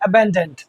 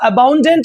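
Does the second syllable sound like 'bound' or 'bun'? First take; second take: bun; bound. First: The second syllable sounds like 'bun'. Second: The second syllable sounds like 'bound'. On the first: The speaker calls it right. "हम क्या बोलेंगे, अबेंडेंट" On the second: The speaker calls it wrong. "इसको अबाउंडेंट ना बोल के"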